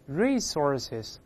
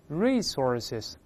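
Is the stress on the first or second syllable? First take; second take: first; first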